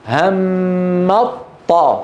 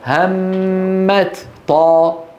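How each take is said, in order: First: The t is merged into the following sound. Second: The t is pronounced separately before the next sound. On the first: "فلما أدغموا ماذا قالوا؟" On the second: "لو أظهرنا لقلنا"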